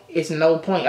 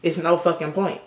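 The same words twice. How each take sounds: First: No stressed, falling end. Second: No lifted, rising end; stress on no. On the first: To viewers, repeating it flatly, no stressed and falling. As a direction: lean on no and settle down. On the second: To viewers, insisting on no, ending on a rise. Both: Shown as a demonstration.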